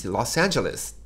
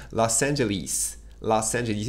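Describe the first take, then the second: First: "Los Angeles" with the American a sound, "Angeles"; American pronunciation. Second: "Los Angeles" with British vowels, ending "lis"; British pronunciation. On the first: Shown as a demonstration. Teacher insisting on the American way. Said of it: "arrêtez de dire Los Angeles". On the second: Retold or imitated. Teacher imitating how English people say the city. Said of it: "Les Anglais prononcent ça".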